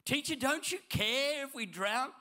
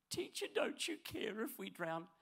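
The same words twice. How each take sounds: First: High, loud desperate plea; panicked cry. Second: A touch of a whiny, timid plea; mildly whimpering like a scared disciple; wimpish prayer. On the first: Acted. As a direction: yell it like the boat is sinking. Panicked disciples crying out. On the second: Retold or imitated. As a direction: disciple whining to Jesus in a wimpy voice. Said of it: "sound a little bit wimpish".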